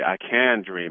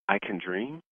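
First: It falls at the end like a statement. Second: It rises at the end like a question.

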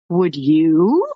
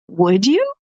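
First: It sounds defiant and challenging. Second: It sounds surprised and amazed.

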